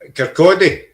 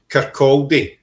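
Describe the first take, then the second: First: The town name is said the local Scottish way. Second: The town name is said the English way.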